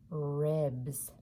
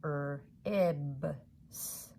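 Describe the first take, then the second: First: Said in the usual way. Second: "ribs" split into its separate sounds, Er, ib, s; sounded out. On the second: Shown as a demonstration. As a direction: stretch each sound of "ribs" apart, one at a time. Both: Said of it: "Let's make all those sounds together".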